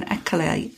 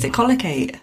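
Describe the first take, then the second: First: Ecolate said "ECK-uh-late", three syllables; mistaken pronunciation. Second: Ecolocate said "eh-COLL-uh-kate", four syllables; corrected pronunciation. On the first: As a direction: say Ecolate short, missing the "co" syllable. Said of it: "All week I've been saying Ecolate". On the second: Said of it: "and it's Ecolocate". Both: Shown as a demonstration.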